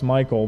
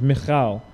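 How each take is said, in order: First: The middle consonant is a plain k sound. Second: The middle consonant is a rasping throat sound. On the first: The speaker calls it wrong. "that sounds a lot like a boy's name to us" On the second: The speaker calls it right. "you have to get your throat into Hebrew quite a bit, so the actual pronunciation is"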